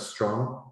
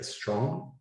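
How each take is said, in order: First: The word starts directly with the consonant cluster. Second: A short vowel is added before the consonant cluster. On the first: "instead of strong" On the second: "it's okay to insert a vowel at the beginning"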